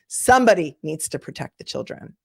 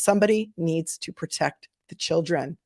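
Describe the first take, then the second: First: It is said noticeably louder. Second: It is said at a normal volume.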